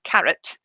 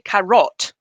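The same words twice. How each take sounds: First: The second vowel is reduced to a schwa. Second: The second vowel is a full, strong vowel. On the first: The speaker calls it right. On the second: The speaker calls it wrong.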